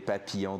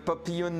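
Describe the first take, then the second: First: It is said with a natural French accent. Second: It is said with an odd English-style accent. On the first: The speaker calls it right. "I just said the two words in a proper like French" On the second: The speaker calls it wrong. "I'm just like saying it so weirdly"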